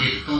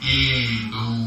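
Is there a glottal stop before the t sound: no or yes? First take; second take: yes; no. First: A glottal stop comes before the t. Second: A long vowel glides into the t. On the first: The speaker calls it wrong. "bukan itu yang dibaca" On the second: The speaker calls it right. "huruf hamzah berubah menjadi ya sukun"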